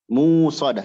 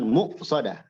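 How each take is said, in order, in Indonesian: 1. Vokal pertama panjang, tanpa hentian glotal. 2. Hentian glotal mengikuti vokal pertama yang pendek. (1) "Musadah jadi dua harokat" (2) "Bukan muqsadah"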